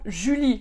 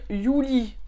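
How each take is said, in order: First: The name is pronounced the French way. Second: The name is pronounced the German way. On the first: "Par exemple, Julie" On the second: "les Allemands vont dire Juli"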